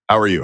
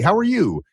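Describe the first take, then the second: First: The voice is curt and stern, falling at the end. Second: The voice is eager and pleading, rising at the end. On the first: The speaker is breaking rapport. "a boss that's almost mad at their employee" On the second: The speaker is seeking approval. "It ends up, it's almost like a song"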